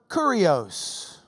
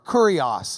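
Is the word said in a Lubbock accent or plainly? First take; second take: Lubbock; plainly. First: It is said with a Lubbock, Texas twang. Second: It is said plainly, without a Lubbock twang.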